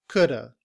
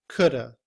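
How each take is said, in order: The two takes are said the same way.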